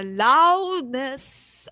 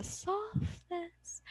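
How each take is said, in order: First: "loudness" swelled loud and drawn out; loudness demo. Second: "softness" hushed and drawn out; softness demo. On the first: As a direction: boom out a long "loudness". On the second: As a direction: drop to a slow, soft "softness". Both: Shown as a demonstration. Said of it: "when we say volume".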